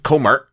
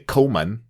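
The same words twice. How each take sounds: First: The word ends with an added r sound. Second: The word ends without an added r sound. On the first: The speaker calls it right. "this is sort of a northern expression" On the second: The speaker calls it wrong. "without the er on the end"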